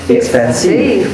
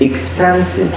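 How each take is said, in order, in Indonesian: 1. Tekanan ada pada suku kata ketiga. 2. Tekanan ada pada suku kata kedua. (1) "when we stress the third one" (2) "if you stress the second one"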